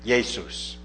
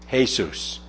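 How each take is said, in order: First: The name begins with a Y sound. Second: The name begins with an H sound. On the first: This is the older and German pronunciation. "still pronounced like the German J, with more of a Y sound" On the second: This is the Spanish pronunciation.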